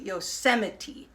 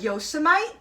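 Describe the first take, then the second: First: It is pronounced the way locals actually say it. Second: It is pronounced the way the spelling suggests. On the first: "the way we pronounce it" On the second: "It looks like Yosemite when it's written down"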